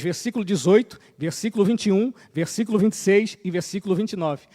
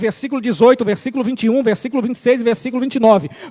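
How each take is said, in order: First: The list is read more slowly. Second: The list is read at a normal pace.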